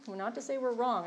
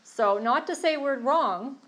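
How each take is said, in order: First: Said in the usual way. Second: Slow, loud, high insistence on not to say; emphatic. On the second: Real, not acted. Sharing in a meeting, she insists loudly. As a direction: lean hard into not to say we're wrong, slowly.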